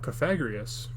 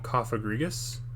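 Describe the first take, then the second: First: The first syllable does not sound like coffin. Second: The first syllable sounds like coffin. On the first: "I don't like saying that particular way of saying his name" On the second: "I personally have always called him Cophagrigus because of coffin"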